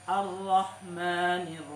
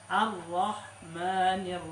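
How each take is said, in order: No difference in how they are said.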